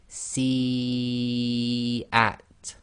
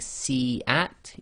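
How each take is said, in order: First: The first vowel is drawn out long. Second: The first vowel is short, not held. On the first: The speaker calls it right. "it's being elongated" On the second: The speaker calls it wrong. "instead of saying"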